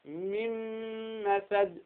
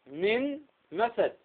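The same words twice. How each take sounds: First: "من مسد" joined as "mimm-masad", long nasal م; Verschmelzung mit Ghunna. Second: Slow "من مسد" with a clear ن and a break before مسد; getrennte Aussprache. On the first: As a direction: turn the ن of "من مسد" into a hummed, doubled م. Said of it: "فننطق بها ماذا؟". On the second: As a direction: keep "من مسد" unmerged, "min", pause, "masad". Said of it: "انظر هنا النون". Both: Shown as a demonstration.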